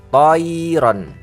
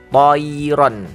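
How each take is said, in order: The two takes are said the same way.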